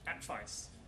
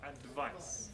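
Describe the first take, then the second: First: The middle consonant sounds like an F. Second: The middle consonant sounds like a V. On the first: This is the typical Dutch speaker's way. "we devoice the D in Dutch and then we change the V into an F" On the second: This is the English speaker's way. "English person would say advice"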